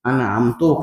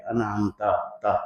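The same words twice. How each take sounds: First: انعمتو ending in a rounded "tu"; انعمتو said anʿamtu, closing on "oo"; ending with pesh. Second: انعمت تا with the last letter said as a clear "ta"; ending with zabar. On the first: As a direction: swap the final vowel so انعمتو ends in "u". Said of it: "زبر کے کو ہٹا کے اگر پیش لگا دے". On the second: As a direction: end انعمت on an open "a" vowel, an-am-ta. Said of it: "آخر میں تے جو ہے اس کے اوپر زبر پڑھتے ہیں". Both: Shown as a demonstration.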